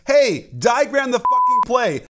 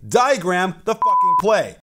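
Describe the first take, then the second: First: Imitating the coach yelling at his guys; yell at players. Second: Said in the usual way. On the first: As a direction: bark it across the bench, half-hammed. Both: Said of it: "to yell at his other guys".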